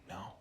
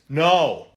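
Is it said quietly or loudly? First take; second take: quietly; loudly. First: It is said quietly. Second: It is said loudly.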